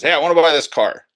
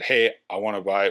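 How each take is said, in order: First: Eager customer. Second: Said in the usual way. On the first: Retold or imitated. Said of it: "but he says". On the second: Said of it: "a gentleman reach out and said".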